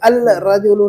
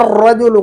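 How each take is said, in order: First: The l is clearly pronounced before the r. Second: The l is silent and the r doubled. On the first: The speaker calls it wrong. "अल रजुलु नहीं कहेंगे" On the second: The speaker calls it right. "अब यहाँ अर्रजुलु कहेंगे"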